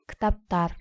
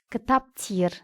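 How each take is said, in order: First: The suffix is said with the vowel a. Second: The suffix is said with the vowel e. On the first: The speaker calls it right. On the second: The speaker calls it wrong.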